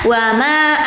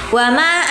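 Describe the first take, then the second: No difference in how they are said.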